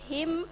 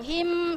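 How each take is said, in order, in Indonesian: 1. Vokalnya dibaca pendek. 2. Vokalnya dibaca panjang. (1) "Bacaannya pendek" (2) "himnya enggak panjang, him, salah"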